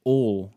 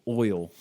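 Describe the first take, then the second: First: "oil" flattened to "ol", Southern accent; Southern pronunciation. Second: Said in the usual way. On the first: Shown as a demonstration. Californian mocks how Southerners say oil, Southern accent. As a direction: drop the glide in "oil", Southern style. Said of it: "You say oil instead of oil". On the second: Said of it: "instead of oil".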